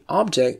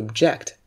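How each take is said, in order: First: The stress is on the first syllable. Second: The stress is on the second syllable. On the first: It is a thing that can be seen or touched. "is a thing or a person or a matter" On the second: It means to be against something. "when it's a verb, you pronounce it as to object"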